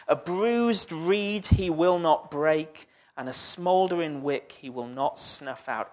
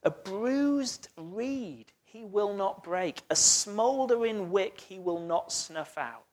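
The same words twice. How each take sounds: First: Said in the usual way. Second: Slow, softer, tender reading of the verse; quietly dwelling on the gentle promise. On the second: Shown as a demonstration. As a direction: lay the words down gently, like handling something fragile. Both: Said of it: "do you notice in the middle what it says?".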